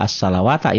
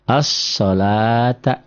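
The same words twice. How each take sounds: First: As-salawata with the waw wrongly sounded; quick as-salawata, an extra wa before ta; wrong reading. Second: As-salata very slowly, long la and no wa; stretched As-salata, waw left silent; correct reading. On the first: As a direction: show the mistake as-salawata, waw pronounced. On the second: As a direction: model As-salata with a held la. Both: Shown as a demonstration. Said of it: "Nggak as-salawata".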